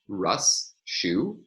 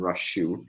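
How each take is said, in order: First: The two words are said slowly and kept apart. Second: The two words are said quickly and run together. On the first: "Here I'm pronouncing the words very carefully apart from one another" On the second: "in casual speech, if I pronounce these two quickly"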